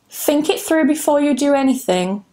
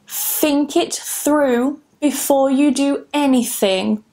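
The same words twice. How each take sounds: First: The sentence is said at normal conversational speed. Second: The sentence is said slowly and carefully.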